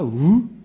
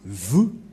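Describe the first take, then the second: First: The word begins with a W sound. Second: The word begins with a V sound. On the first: The speaker calls it wrong. "C'est pas vous" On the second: The speaker calls it right. "mais vous"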